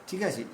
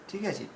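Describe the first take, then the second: The two takes are said the same way.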